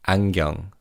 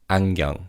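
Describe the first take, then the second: The two takes are said the same way.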